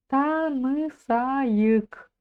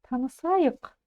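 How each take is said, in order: First: The second vowel is said fully and clearly. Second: The second vowel is very short, barely heard. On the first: The speaker calls it wrong. "Произносите ее как обычную" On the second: The speaker calls it right. "буква «ы» произносится очень кратко"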